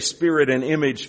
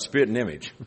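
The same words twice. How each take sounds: First: The phrase is said slowly with each word clear. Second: The phrase is said fast, run together, southern-sounding.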